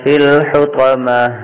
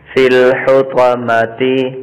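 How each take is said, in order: First: The last word ends clipped, without the vowel. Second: The last word ends with a short i vowel. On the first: "آگے وقف" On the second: "تا زیرتی"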